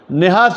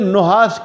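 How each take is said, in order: First: The first vowel is i. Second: The first vowel is u. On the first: The speaker calls it wrong. "निहास भी नहीं पढ़ना" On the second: The speaker calls it right. "नून को जम्मा दे के पढ़े"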